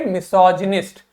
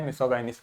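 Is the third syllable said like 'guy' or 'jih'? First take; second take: jih; guy. First: The third syllable sounds like 'jih'. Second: The third syllable sounds like 'guy'. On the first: The speaker calls it right. "इसको बोलेंगे मिसोजिनिस्ट" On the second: The speaker calls it wrong. "उस चक्कर में मैंने मिसोगाइनिस्ट बोल दिया, नहीं"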